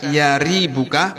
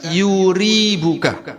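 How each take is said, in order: First: The first syllable has the vowel a. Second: The first syllable has the vowel u. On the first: "Boleh dibaca yaribuka" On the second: "boleh dibaca yuribuka"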